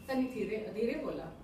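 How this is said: It sounds like a polite request.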